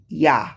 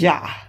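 First: The word begins with a Y sound. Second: The word begins with a J sound. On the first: The speaker calls it right. "but it's supposed to be Yah, Y-A-H" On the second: The speaker calls it wrong. "it says Yah, J-A-H"

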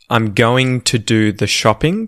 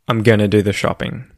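First: Every word is said slowly and clearly. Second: Words are said fast and run together. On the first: "proper, well-enunciated, well-pronounced English" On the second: "read it quickly in, you know, colloquial Australian English"

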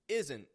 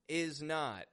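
First: It is contracted with a stopped final T. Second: It is said in full as two words.

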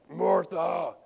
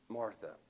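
First: It is said sternly, like a scolding parent. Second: It is said gently and lovingly.

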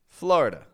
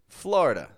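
First: The vowel after the r is dropped. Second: The vowel after the r is dropped.

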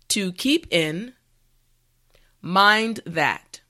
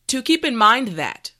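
First: The phrase is said slowly and carefully. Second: The phrase is said at normal speed. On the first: "repeat after me" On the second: "now let's say it at a normal pace"

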